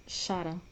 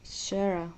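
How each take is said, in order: First: Sarah said as SAH-rah; Greek pronunciation. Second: Sarah said as SAIR-uh; her English pronunciation. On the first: A Greek explaining her own version, Sarah as SAH-rah. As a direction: say Sarah with two open "ah" vowels, Greek style. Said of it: "we have the name Sarah in Greek". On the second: Showing viewers how she pronounces it, Sarah as SAIR-uh. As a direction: say Sarah with "eh" first and a weak "uh" ending. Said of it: "This is how she pronounces it". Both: Shown as a demonstration.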